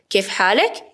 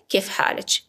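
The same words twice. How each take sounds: First: حالک with final -ek; masculine ending. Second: حالچ with final -ech; feminine ending. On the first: Teacher asks how a man is, حالک with final k. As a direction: end حالک rising on a k. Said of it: "برای طرف مقابل آقا". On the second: Teacher asks how a woman is, حالچ with final ch. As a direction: softly end حالچ on a ch. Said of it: "اگر طرف مقابلم خانم بود". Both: Shown as a demonstration.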